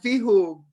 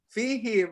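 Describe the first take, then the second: First: The last syllable has the vowel 'u'. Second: The last syllable has the vowel 'i'. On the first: The speaker calls it wrong. "bukan fihum" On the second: The speaker calls it right. "fihim, bukan fihum"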